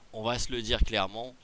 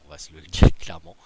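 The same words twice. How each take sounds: First: Said in the usual way. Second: Blurts it out loud and fast, breaking into a laugh. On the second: Real, not acted. Streamer laughing to viewers about the overpowered player. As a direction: laugh mid-sentence while conceding the point. Laughing while admitting the obvious.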